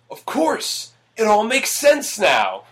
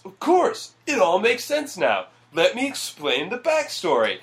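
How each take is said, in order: First: High, slow mock eureka; hammy movie epiphany. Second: High mock eureka with a push; hammy movie epiphany. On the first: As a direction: overact the sudden realization. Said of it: "Which is said verbatim". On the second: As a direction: ham up the big revelation. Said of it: "that is literally his response".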